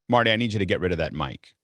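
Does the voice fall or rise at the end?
falls. The voice falls firmly at the end.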